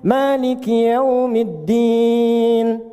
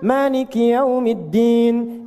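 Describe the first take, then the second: First: The final vowel is held about two seconds. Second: The final vowel is held about one second. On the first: "Anda baca empat" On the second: "boleh dibaca satu detik, dua harakat. Untuk bacaan cepat"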